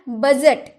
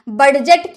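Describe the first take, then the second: First: The d sound is left out. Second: The d sound is clearly pronounced. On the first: The speaker calls it right. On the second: The speaker calls it wrong. "क्या आपने डी का उच्चारण किया? बडजट किया? बडजट नहीं होगा ना"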